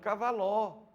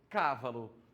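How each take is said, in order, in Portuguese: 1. A tônica está na terceira sílaba. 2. A tônica está na primeira sílaba. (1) "A outra, cavaló" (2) "a número um aqui tem cávalo"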